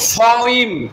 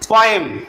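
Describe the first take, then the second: First: It starts with a breathy p sound. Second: It starts with a plain p sound. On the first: The speaker calls it right. "সঠিক উচ্চারণ কি বলো? ফইম।" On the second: The speaker calls it wrong. "আমরা আগে থেকে কি জানতাম"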